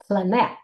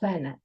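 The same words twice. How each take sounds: First: The stress is on the second syllable. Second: The stress is on the first syllable. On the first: The speaker calls it wrong. "we don't say planet" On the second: The speaker calls it right. "we say planet"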